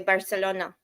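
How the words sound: It is said in a Mexican Spanish accent. "not like Mexicans who say Barcelona"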